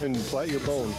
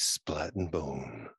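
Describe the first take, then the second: First: It is said in a plain voice. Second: It is said in a sexy voice.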